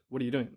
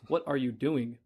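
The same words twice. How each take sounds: First: The words are run together into one blur. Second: Each word is said separately and clearly.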